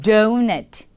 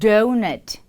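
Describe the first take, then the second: Both takes have the same delivery.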